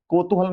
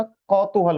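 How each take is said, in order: First: कौतूहल opened with a closed "ko"; wrong first vowel. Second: कौतूहल opened with a broad "kau"; correct au vowel. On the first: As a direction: say कौतूहल as "ko-tu-hal". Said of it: "कौतूहल नहीं होता". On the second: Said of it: "कौतूहल होता है". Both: Shown as a demonstration.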